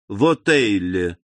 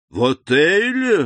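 First: Said in the usual way. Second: Startled slow exclamation, louder; вскрик удивления. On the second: A narrator's reading. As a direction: blurt it out in shock. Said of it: "воскликнул Вильфор". (удивлённое восклицание)

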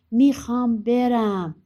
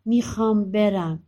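First: Louder, higher, stretched-out demand; insistent demand. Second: Louder, drawn-out insistence; slow, firm demand to go; insistent. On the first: Son wears his mother down, loudly insistent. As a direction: draw it out slowly, raised and stubborn. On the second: Son pleads with mother to let him go, insistent. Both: Acted.

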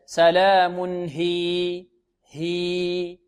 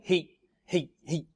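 First: هي held long, two beats. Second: هي clipped, no long vowel; short ya, wrong. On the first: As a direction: stretch the ya of هي over two counts. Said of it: "بل". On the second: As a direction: cut هي short at the pause, the wrong way. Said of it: "خطأ". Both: Shown as a demonstration.

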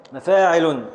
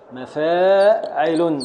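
First: Said in the usual way. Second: Slow meter foot. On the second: Shown as a demonstration. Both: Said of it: "بحذف الخامس الساكن".

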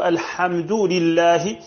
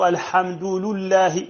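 First: Said in the usual way. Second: لله said lullahi, the lam taking u after الحمد; slow, say لله as lul-lahi; lam with damma. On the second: Shown as a demonstration. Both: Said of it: "بضم اللام".

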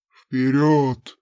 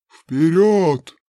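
First: Low, loud barked order; impatient command. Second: Loud, forceful order; louder command. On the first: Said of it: "нетерпеливо потребовал Хараун". (нетерпеливый громкий приказ) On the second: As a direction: yank him forward with your voice. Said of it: "натягивая невидимые поводья". (громкий властный приказ) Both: Acted.

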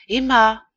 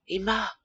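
First: Crying out her name louder; a desperate call, rising up. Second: Calling her name gently, almost under the breath; called softly. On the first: Charles crying out to dead Emma, pleading. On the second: Charles calling softly to his dead wife, hushed. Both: A narrator's reading. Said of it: "il cria tout bas".

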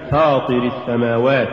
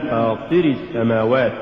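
First: Said in the usual way. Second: فاطر السماوات with too much stress on the ط; فاطر السماوات, accent shifted onto طِ; overstressed ta. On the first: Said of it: "والصواب فاطر السماوات". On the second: Shown as a demonstration. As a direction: punch the طِ in فاطر. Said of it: "زيادة نبرة الطاء".

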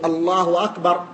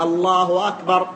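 First: "الله أكبر" as people commonly say it, Allahu run into "أكبر" with a w sound; people's mistaken takbir. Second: "الله أكبر" with the final h of "الله" voiced into a waw, alːahwa akbar; waw after Allah. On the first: Retold or imitated. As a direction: imitate the common slurred takbir. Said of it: "نسمع كثير من الناس يقول". ("الله أكبر" كما يقولها كثير من الناس بواو زائدة) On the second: Shown as a demonstration. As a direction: join "الله" to "أكبر" with an added w sound. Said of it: "ثم ينطقها واوا". ("الله أكبر" بنطق الهاء واوا: اللهوَ أكبر)

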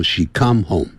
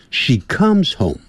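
First: "come" with the final s left off; bare "come", no s at the end; come without the s. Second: "comes" slowly said with its final s sounded. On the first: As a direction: show the mistake, "come" ending on m. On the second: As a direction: model "comes", keeping the s on the end. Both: Shown as a demonstration. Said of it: "不要说".

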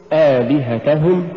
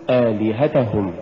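First: "آلهتهم" slow and rising, push on ta; correct آلهتهم. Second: "آلهتهم" falling away, ta weak; mispronounced آلهتهم. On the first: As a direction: lift the ta of آلهتهم before hum. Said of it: "قل". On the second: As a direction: say آلهتهم with no push on the ta. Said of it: "ولا تقل". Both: Shown as a demonstration.

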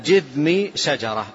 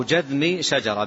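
First: جذم with a short i after the jim, "jidhmi"; kasra on jim. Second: جذم with a short a after the jim, "jadhmi"; fatha on jim. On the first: Teacher showing students the first reading of جذم, with kasra: "jidhmi". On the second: Teacher giving students the alternative reading of جذم, with fatha: "jadhmi". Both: Shown as a demonstration. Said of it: "بالفتح والكسر للجيم".

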